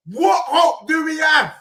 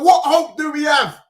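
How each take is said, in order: First: Slower, drawn out shouted repeat. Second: Loud exasperated shout. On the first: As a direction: stretch every word, still shouting. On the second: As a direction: yell the question in despair. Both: Real, not acted. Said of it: "I keep shouting".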